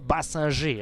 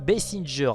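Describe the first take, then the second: First: The name is said with a French pronunciation. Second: The name is said with an English pronunciation. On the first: The speaker calls it wrong. "et pas Basinger, hein, à la française" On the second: The speaker calls it right. "je dis bien Basinger"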